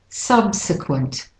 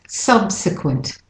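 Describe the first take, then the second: No difference in how they are said.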